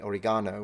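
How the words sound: It is said with a British pronunciation. "In England, you say oregano"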